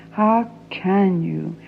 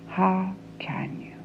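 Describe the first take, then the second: First: Slow. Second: Soft whispered plea; a hushed plea. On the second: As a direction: breathe the question out. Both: Acted. Pleading with father.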